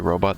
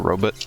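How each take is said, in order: First: The word has its ordinary modern pronunciation. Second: The word has an old 1960s film pronunciation. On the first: "they don't say robot" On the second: "they say robot. Like stuff from the nineteen sixties"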